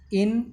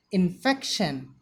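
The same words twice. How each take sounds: First: INFECTION split into in, fec, tion; syllable by syllable. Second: Said in the usual way. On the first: Shown as a demonstration. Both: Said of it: "The pronunciation of the word is".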